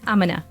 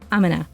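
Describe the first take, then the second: First: The words are squeezed into a short reduced form. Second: The words are squeezed into a short reduced form.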